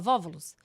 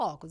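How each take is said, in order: First: The word begins with a v sound. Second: The word begins with a vowel sound. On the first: The speaker calls it wrong. "ela fala vóvulos" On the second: The speaker calls it right. "ela não fala óculos"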